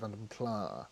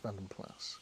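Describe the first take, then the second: First: The last word ends without an s sound. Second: The last word ends with an s sound. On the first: The speaker calls it wrong. "a lot of people over here pronounce it Vanden Pla because that's how they sort of sold them" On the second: The speaker calls it right. "but it's not. It's Vanden Plas"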